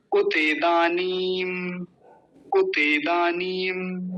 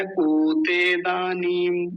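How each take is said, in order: First: उतेदानीम with brief u, then slow long दानीम; correct short उ. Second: उतेदानीम with the first vowel stretched to a long oo; wrong long ऊ. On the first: Teacher leading learners to repeat, slow correct pronunciation. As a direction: say उतेदानीम slowly, first vowel short, ee held. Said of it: "मेरे साथ बोलिए". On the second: Teacher showing learners the common mistake, long-vowel mispronunciation. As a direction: drawl the opening of उतेदानीम as "ooo-te". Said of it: "बड़ा ऊ बना देते हैं". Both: Shown as a demonstration.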